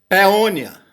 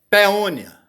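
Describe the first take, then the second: Both takes have the same delivery.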